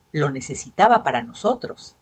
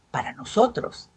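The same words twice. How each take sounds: First: Said in the usual way. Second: "nosotros" lifted higher on a rising tune; insistent echo. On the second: A narrator's reading. Husband repeats his excuse to his wife, stressing "nosotros". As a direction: lean on "nosotros", rising, pleading.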